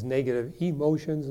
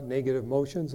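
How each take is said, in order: First: "emotions" with the e sound clearly at the start; correct word. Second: "motions" said without the e sound at the start; wrong word. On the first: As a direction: say "negative emotions" with the full "e" up front. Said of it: "not negative motions". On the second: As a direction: drop the e: "negative motions". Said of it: "I think he means negative emotions". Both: Shown as a demonstration.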